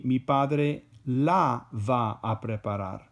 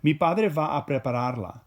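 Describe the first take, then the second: First: La given a slight lift, phrase spoken slowly; stress on la. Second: Prepararla ending la said clearly, slightly louder; stress on prepararla. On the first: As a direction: lean on la, take it slow. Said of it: "then it's gonna be". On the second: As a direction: lean on prepararla to show the attached la. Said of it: "we could say it a different way". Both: Shown as a demonstration.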